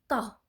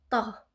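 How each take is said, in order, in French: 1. Le t est lourd, l'arrière gonflé. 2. Le t est lourd, l'arrière gonflé.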